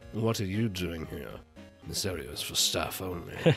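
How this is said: It is said in a dark, villainous voice. The speaker calls it right. "That's like Skyrim villain voice"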